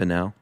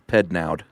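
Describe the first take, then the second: First: The name is said without a D sound. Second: The name is said with a D sound. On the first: "I assume the D is silent" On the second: "or maybe not. Maybe it's Pednoud"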